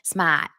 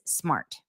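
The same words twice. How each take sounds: First: It is said with a Boston accent. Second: It is said without a Boston accent.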